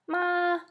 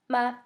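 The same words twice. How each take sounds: First: The pitch stays high and level. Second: The pitch is light and neutral. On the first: "All of those are first tone. They're very high, and they don't change at all" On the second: "all of those are fifth tone"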